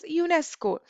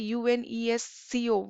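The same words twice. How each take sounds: First: It is spoken as a single word. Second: Each letter is spoken separately. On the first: The speaker calls it right. "we say it as UNESCO" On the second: The speaker calls it wrong. "we do not say UNESCO"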